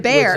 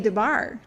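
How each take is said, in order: First: The second syllable sounds like 'bear'. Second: The second syllable sounds like 'bar'. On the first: The speaker calls it right. "It's DeBear" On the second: The speaker calls it wrong. "I say DeBar"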